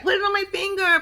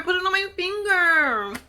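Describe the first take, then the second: First: Much higher, eager girlish mock plea; mock Emily. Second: High, drawn-out mock plea; mock Emily, slower. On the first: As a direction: imitate her begging, pitched way up. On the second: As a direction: stretch the words out slowly, still high. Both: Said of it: "she's like".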